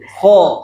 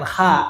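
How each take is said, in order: First: The syllable is pronounced thick and heavy. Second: The syllable is pronounced thin and light. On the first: The speaker calls it right. "tebal aja dulu" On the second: The speaker calls it wrong. "tebalnya bukan kha"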